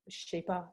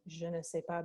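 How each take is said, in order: First: The word 'ne' is dropped entirely. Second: The word 'ne' is pronounced in full. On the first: "they drop it and they just say pas" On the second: "they don't say the ne"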